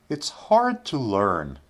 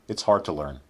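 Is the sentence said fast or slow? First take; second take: slow; fast. First: The sentence is spoken at a slow pace. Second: The sentence is spoken at a quick pace. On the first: "first we'll say them slowly" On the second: "then we'll say them quickly"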